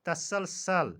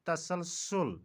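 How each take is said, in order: First: तसलसल said ta-sal-sal; तसलसल with a in last syllable; mispronunciation. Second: तसलसल said ta-sal-sul; तसलसल with u in last syllable; correct pronunciation. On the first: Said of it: "का सही तलफ़ुज़". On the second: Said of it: "सही तलफ़ुज़ तसलसल". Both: Shown as a demonstration.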